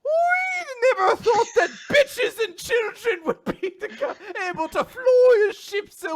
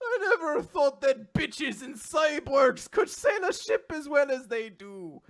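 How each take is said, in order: First: High, loud, slow Irish shout breaking into laughter; hammy Irish captain laughing through it. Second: High, slow hammy Irish shout. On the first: Captain praising the crew in hammy Irish, laughing. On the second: Captain retrying his compliment in loud stage Irish. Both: Pretend. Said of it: "a stereotypical Irish guy".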